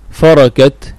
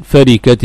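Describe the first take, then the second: First: فركت as farakat; فركت with all its vowels opened to "a"; fatha on the ra. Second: فركت as farikat; فركت with its ra in kasra; usual kasra form. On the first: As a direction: say فركت with an "a" after the r. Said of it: "بالفتح". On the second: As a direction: say فركت with an "i" after the r. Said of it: "لكن هذا نادر". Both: Shown as a demonstration.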